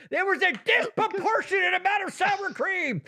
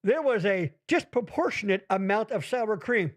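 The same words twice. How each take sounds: First: Grand proclamation. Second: Said in the usual way. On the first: Shown as a demonstration. Host repeating an unprecedented phrase to his co-host, grand and high. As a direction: say it high and grand, like a historic first. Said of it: "No one's ever put those words together". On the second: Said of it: "here's a phrase that's never been said".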